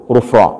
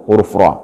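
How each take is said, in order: Both takes have the same delivery.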